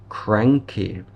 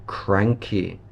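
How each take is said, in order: Both takes have the same delivery.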